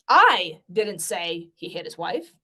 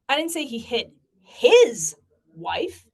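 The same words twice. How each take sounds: First: The stress is on the word I. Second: The stress is on the word his.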